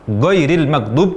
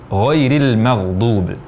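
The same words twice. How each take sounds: First: The gh sounds are said as a hard g. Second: The gh sounds are said as a throaty gh. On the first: The speaker calls it wrong. "jadi huruf G, ini kesalahan yang sangat fatal" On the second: The speaker calls it right. "Yang benar ghairil maghdub"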